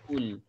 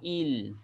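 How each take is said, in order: First: The syllable starts with a u vowel. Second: The syllable starts with an i vowel. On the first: "Tak boleh juga baca dengan baris depan ul" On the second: "Tak boleh baca dengan baris bawah il"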